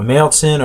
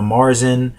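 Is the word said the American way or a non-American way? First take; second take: non-American; American. First: It is said with a non-American pronunciation. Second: It is said with an American pronunciation.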